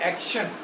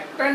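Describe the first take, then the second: First: The middle consonant is an 'sh' sound. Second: The middle consonant is a plain 't' sound. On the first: The speaker calls it right. "आ का शा ना एक्शन हम बोलते हैं" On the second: The speaker calls it wrong. "एक्टन नहीं होगा"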